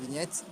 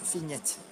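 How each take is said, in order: First: It begins with a voiced V sound. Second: It begins with a voiceless F sound. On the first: "It's written like that" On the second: "everything sounds more Germanic, so it's Fignette"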